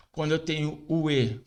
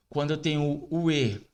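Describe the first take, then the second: No difference in how they are said.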